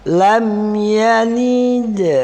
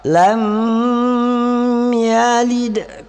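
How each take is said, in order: First: The m sound is short and clear. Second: The m sound is held long and hanging. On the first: The speaker calls it right. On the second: The speaker calls it wrong.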